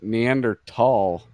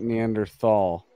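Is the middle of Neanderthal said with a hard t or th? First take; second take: hard t; th. First: The 'th' is said as a plain t sound. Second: The 'th' is said as a th sound. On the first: The speaker calls it right. "recently learned it's ... but Neanderthal" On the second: The speaker calls it wrong. "not Neanderthal"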